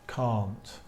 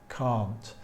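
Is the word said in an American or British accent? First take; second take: British; British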